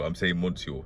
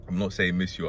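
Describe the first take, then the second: First: Monsieur said fully as "mon-syor"; correct pronunciation. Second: Monsieur said as "miss-yor", the first syllable a short "mi"; wrong pronunciation. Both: Shown as a demonstration. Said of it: "That's how you pronounce it".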